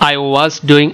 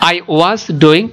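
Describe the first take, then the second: First: It is said fast in one breath. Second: It is said slowly and clearly. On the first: "এক নিঃশ্বাসে বলে ফেলবে" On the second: "এইভাবে তুমি আস্তে আস্তে বলবে"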